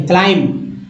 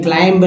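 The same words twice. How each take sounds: First: क्लाइंब as "klaim", closing on m; teacher's model of क्लाइंब with no b sound; silent b. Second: क्लाइंब as "klaimb", final b pronounced; wrong-way demo of क्लाइंब, b voiced at the end; sounded b. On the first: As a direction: drop the final b of क्लाइंब. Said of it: "सिर्फ बी silent है". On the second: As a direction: let a b be heard after the m in क्लाइंब. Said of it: "नहीं". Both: Shown as a demonstration.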